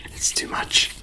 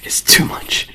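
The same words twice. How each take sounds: First: Said in the usual way. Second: Sharp, louder whisper. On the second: Shown as a demonstration. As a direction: push the whisper out hard. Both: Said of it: "If I blow too hard".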